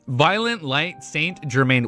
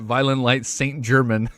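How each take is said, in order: First: The last name is said ending in 'main'. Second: The last name is said like the word German. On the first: The speaker calls it right. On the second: The speaker calls it wrong.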